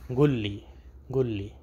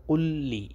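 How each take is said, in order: First: قل لی as گل لی, with a g; colloquial Arabic. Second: قل لی slowly with a full qaf; classical Arabic. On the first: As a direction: dialect قل لی, the qaf turned into a g. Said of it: "عربی لہجے میں بولنا ہے". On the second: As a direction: fusha قل لی, clear and slow. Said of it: "اصل لفظ ہے". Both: Shown as a demonstration.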